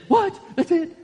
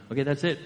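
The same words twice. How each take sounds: First: Much higher and louder, incredulous; a viewer stunned by a cliffhanger ending; shocked disbelief. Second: Said in the usual way. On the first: Retold or imitated. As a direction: squeak it out in disbelief. Reacting to a season finale. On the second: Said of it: "I can do it".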